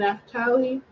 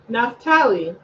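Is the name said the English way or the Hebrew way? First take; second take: Hebrew; English. First: The name is said with a Hebrew pronunciation. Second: The name is said with an English pronunciation.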